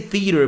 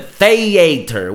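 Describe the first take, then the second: First: It is said in a non-British accent. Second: It is said in an English accent.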